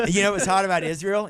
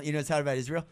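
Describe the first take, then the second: First: Louder first take. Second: Said in the usual way. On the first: Shown as a demonstration.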